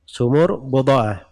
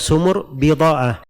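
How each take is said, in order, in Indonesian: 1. Huruf b diikuti vokal 'u'. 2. Huruf b diikuti vokal 'i'. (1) "Dikatakan bid'ah di dhamma ba-nya" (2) "bisa dibaca dengan dikasrah ba-nya"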